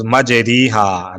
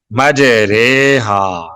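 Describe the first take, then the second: First: "ریحا" as ree-haa, a clear ee vowel; "مج ریحا" pronounced maj-REE-haa; written "ri" reading. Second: "ریحا" as ray-haa, not ree-haa; "مج ریحا" drawn out as maj-RAY-haa; majhool vowel. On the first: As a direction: say "مج ریحا" with a long ee after the r. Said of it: "اس کا تلفظ ری نہیں کریں گے". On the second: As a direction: say "مج ریحا" slowly with a long ay after the r. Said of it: "اس کو مجہول پڑھیں گے". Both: Shown as a demonstration.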